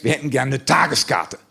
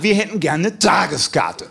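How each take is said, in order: First: Said in the usual way. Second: Slower, emphatic macho demand; macho insistence. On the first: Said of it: "fühlten wir uns testosterontechnisch etwas herausgefordert". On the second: Retold or imitated. Customers challenged by the ticket seller's offer, macho insistence. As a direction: insist like a challenged tough guy. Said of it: "testosterontechnisch etwas herausgefordert und sagten".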